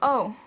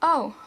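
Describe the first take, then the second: First: The vowel glides as the mouth moves. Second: The same.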